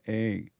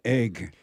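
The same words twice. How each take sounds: First: The final g is dropped, Black country style. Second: The final g is clearly pronounced.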